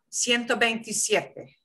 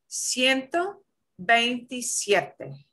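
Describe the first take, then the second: First: It is said at a normal, quicker speed. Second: It is said slowly and carefully.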